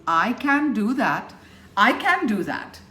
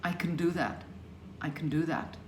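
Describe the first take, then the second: First: "can" given a full, stressed vowel; over-stressed "can" with an open A; unshrunk "can". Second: "can" reduced to a quick, soft "c'n"; softly said, "can" unstressed and swallowed; shrunk "can". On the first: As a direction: hit "I" and "can" hard, every word full. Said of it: "They've got to shrink". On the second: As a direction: slip lightly over "can" toward "do that". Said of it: "all of those have to shrink". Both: Shown as a demonstration.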